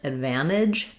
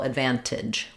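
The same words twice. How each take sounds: First: No T sound is heard after the N. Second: A T sound is heard after the N. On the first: "where they don't do that T either" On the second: "with the T"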